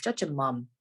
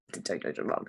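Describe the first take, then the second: First: Said in the usual way. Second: Low, breathy whispered take-back; whispered retraction. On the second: Acted. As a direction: whisper it like a guilty correction. Cheeky jab, then takes it back.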